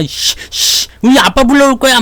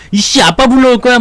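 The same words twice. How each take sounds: First: Put-on sulky child threatening to fetch dad; a kid in a fight yelling he'll get his dad; bratty kid threat. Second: Put-on a kid in a scuffle crying he'll bring his dad; bratty kid threat. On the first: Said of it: "꼬맹이들이 막 싸우면 그러잖아". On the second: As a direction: shout it like a sulking child. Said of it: "막, 씨, 막 그러는데".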